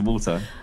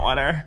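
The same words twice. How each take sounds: First: It is said in a non-American accent. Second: It is said in an imitated American accent. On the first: "Opposed to water" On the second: "That's how you say it"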